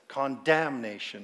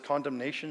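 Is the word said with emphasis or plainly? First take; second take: emphasis; plainly. First: The word is said with marked, unusual emphasis. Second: The word is said with ordinary, unmarked stress. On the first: "She says condemnation. I don't know why she emphasized that" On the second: "My mom doesn't pronounce it as condemnation"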